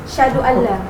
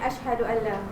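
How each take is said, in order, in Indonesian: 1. Bunyi 'a' di awal dihilangkan. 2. Bunyi 'a' di awal dibaca dengan jelas. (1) "berbunyi syahadu Allah" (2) "sepatutnya asyhadu Allah"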